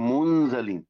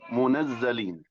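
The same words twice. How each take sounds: First: The n has no vowel and z is single. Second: The n has an a vowel and z is doubled. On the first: "بالتخفيف مع سكون النون" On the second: "فتح النون مع التشديد"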